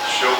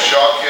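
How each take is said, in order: First: "shoked" said as Hebrew, sho-KED, with an O sound; Hebrew pronunciation. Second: "shaked" said as Hebrew, sha-KED, with an A sound; Hebrew pronunciation. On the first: Teacher contrasts the word for watching, clearly pronounced "shoked". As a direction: give "shoked" a round O, unlike "shaked". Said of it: "which is watching". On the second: Teacher contrasts the word for almond, clearly pronounced "shaked". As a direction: give "shaked" an open A, unlike "shoked". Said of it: "which is almond". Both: Shown as a demonstration.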